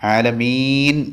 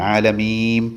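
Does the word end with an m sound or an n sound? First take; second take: n sound; m sound. First: The word ends with an n sound. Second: The word ends with an m sound. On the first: The speaker calls it right. "ആലമീൻ എന്നാണ് ശരി" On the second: The speaker calls it wrong. "അത് മീമായി രൂപാന്തരപ്പെടരുത്"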